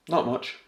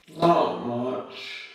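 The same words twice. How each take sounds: First: Said in the usual way. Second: Louder, higher, strongly accented "Not much"; broad Yorkshire. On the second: Shown as a demonstration. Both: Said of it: "let's see an example".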